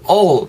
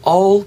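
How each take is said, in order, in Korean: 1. 모음은 완전하고 둥근 'o' 소리입니다. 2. 모음은 약화된 'uh' 소리입니다. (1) "all 이렇게 하지 마시고" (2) "약간 어 정도로 발음하셨으면 좋겠어요"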